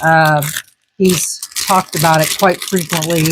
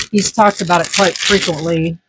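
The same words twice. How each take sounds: First: Crunching while talking; talking through a crunchy bite; mouth full. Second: Said in the usual way. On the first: Real, not acted. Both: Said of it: "Sorry about the crunching".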